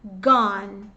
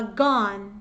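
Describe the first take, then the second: No difference in how they are said.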